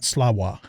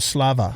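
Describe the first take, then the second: First: The middle consonant is not a V sound. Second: The middle consonant is a V sound. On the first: The speaker calls it wrong. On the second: The speaker calls it right. "pronounced with a with a V sound"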